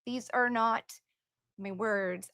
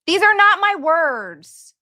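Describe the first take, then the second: First: Much softer, almost to herself; quiet disclaimer. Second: Louder, slow and emphatic, higher; firm disclaimer. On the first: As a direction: drop the voice and repeat it under your breath. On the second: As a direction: insist slowly that these aren't your words. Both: Real, not acted. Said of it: "I'm just reading it".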